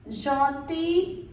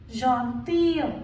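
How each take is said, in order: First: "gentil" with silent l, rising; masculine pronunciation. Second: "gentille" slow, with a glide after ee, falling; feminine pronunciation. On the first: Teacher modelling the masculine form, "gentil" without final l. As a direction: end "gentil" on ee. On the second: Teacher modelling the feminine form, "gentille" with sounded ending. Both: Shown as a demonstration.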